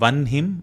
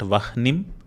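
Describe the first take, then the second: First: The n sound comes before the breathy h. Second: The breathy h comes before the n sound. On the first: The speaker calls it right. "Notice how we are saying Vanhim" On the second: The speaker calls it wrong. "not Vahnim"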